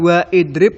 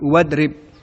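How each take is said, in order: First: The vowel after wa is pronounced separately. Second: The vowel after wa is dropped and linked. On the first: The speaker calls it wrong. "Bukan wa idrib" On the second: The speaker calls it right. "tapi wadrib"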